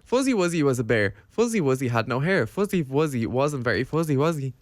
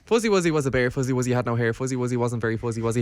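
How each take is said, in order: First: It is said slowly. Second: It is said fast.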